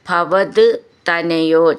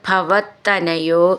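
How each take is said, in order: First: The two words are said separately. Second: The two words are joined into one.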